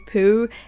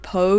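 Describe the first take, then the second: First: The name ends in an 'oo' vowel. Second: The name ends in an 'oh' vowel. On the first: "the most common pronunciation seems to be Pooh" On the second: "we always pronounced it Poe like Edgar Allan"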